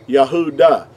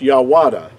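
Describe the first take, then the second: First: The middle of the word has an H sound. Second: The middle of the word has a W sound. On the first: The speaker calls it right. "It would have to be pronounced Yah, Yahuda" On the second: The speaker calls it wrong. "It will not it would not be pronounced Yawada"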